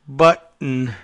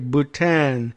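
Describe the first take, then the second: First: The name is said like the word 'button'. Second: The name is said as 'boo-TAHN'. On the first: The speaker calls it wrong. "which of course he pronounces as Button" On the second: The speaker calls it right. "not pronounced button"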